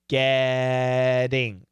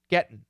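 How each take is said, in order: First: The T is a quick flap like D. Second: The T is stopped before a nasal ending. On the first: "to a flap T, and it's going to sound like getting ... Almost like a D" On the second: "when we say it even faster, we use a stop T schwa N"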